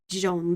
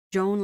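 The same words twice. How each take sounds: First: Joan with a pure soft zh and no d, zhohn; soft French J. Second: Joan with a d before the j, dzhohn; hard English J. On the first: Showing a friend the French J, soft Joan. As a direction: Joan said smoothly without the d edge. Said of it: "in French you kind of remove that". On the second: Showing a friend the English J, hard Joan. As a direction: Joan started with a hard d-like edge. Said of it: "it sounds a bit like you have a D first". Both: Shown as a demonstration.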